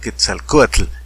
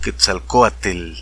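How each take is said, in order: First: The final tl is said strongly and clearly. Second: The final tl is said softly, not strongly. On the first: This is how Mexicans say it. "ellos no dicen Quetzalcoatl" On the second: This is how people from Spain say it. "normalmente no pronuncian así"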